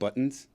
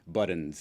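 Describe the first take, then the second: First: The t in the middle is hard. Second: The t in the middle is soft. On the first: This is the usual way to say it. "instead of buttons" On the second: This is how the guest says it. "he's a softie as well. He does the buttons"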